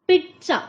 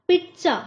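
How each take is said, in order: Both takes have the same delivery.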